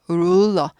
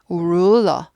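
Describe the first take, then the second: The two takes are said the same way.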